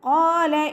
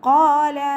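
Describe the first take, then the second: The two takes are said the same way.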